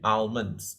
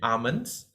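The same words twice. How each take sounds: First: It is said with an American pronunciation. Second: It is said with a British pronunciation. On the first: "For the U S pronunciation" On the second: "for the British pronunciation"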